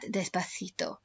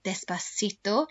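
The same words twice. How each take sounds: First: It is said with a Spain Spanish accent. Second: It is said with a Latin American Spanish accent. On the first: "In Spain, they would pronounce that" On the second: "You will hear that kind of Spanish spoken in songs like"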